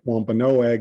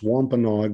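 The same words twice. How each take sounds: First: The final 'a' sound is pronounced. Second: The final 'a' sound is left silent. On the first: This is the form the speaker grew up with. "I grew up on the island pronouncing it" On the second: This is the form heard more in recent years. "why in recent years am I sometimes hearing the tribe's name pronounced"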